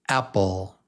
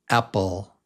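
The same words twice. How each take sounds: No difference in how they are said.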